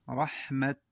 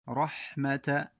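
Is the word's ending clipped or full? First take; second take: clipped; full. First: The word stops without its final vowel. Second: The word ends with its full final vowel. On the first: The reader pauses on this word. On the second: The word runs on into what follows.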